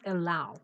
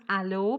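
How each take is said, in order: First: The word is said with its standard vowel. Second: The word is said with a spelling-based vowel. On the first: The speaker calls it right. "It should be pronounced allow" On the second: The speaker calls it wrong. "as if it should be pronounced allow, but it's not"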